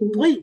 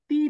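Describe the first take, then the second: First: The syllable is said heavy and thick. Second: The syllable is said thin and light. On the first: The speaker calls it right. "কিন্তু তুই, তুই মোটা করে" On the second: The speaker calls it wrong. "এই যে তি না"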